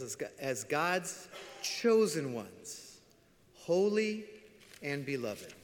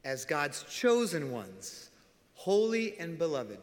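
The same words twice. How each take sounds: First: Slow, weighty reading of the verse; solemn scripture reading. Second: Slow, stressed restatement of chosen; slow emphatic reminder; reminding emphasis. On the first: Acted. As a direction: lay each word down slowly. Reads scripture slowly. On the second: Shown as a demonstration. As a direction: press chosen home slowly. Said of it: "I gotta remind you again".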